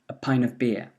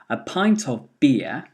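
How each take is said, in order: First: The word 'of' is reduced to a weak vowel. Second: The word 'of' keeps its full vowel.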